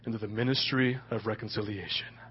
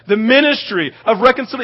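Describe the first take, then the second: First: It is said in a put-on deep voice. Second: It is said in his normal speaking voice.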